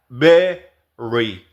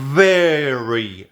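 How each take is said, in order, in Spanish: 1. El primer sonido se hace con ambos labios. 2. El primer sonido usa el labio inferior y los dientes. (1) "si la hablara desde mi español, muy probablemente diría very" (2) "Pero en realidad es very"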